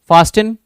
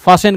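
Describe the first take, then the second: First: The t sound is clearly pronounced. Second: The t sound is left silent. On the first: The speaker calls it wrong. "मैं यहां पे गलत pronunciation कर रहा हूं" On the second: The speaker calls it right. "टी silent करके"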